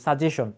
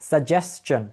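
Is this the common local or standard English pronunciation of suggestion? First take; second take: common local; standard English. First: It uses the common local pronunciation of the word. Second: It uses the standard English pronunciation of the word. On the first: The speaker calls it wrong. "আমরা বলি কি সাজেশন" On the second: The speaker calls it right. "Right pronunciation হচ্ছে সাজেশন"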